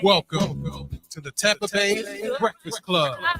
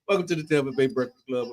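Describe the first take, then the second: First: It is said in a Super Dave impression voice. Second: It is said in his own normal voice.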